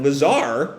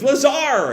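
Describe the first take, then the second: First: LAZAR as a mild question, rising doubt. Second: Acted high cry of LAZAR; mock scream. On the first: Retold or imitated. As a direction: say LAZAR as if unsure what he means. Puzzled look at comrade. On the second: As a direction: cry out LAZAR for a lost comrade. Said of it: "Dylan screams".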